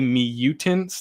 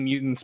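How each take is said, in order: First: The word is said with extra careful enunciation. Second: The word is said plainly, without extra enunciation. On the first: This is how the speaker says it. The speaker calls it wrong. "I kind of put an enunciation on it" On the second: This is how the other person says it. The speaker calls it right. "continue saying mutants because it sounds better"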